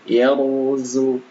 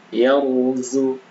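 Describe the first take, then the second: Both takes have the same delivery.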